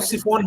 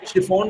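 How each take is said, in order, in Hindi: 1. यह शब्द सादी S ध्वनि से शुरू होता है। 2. यह शब्द SH ध्वनि से शुरू होता है।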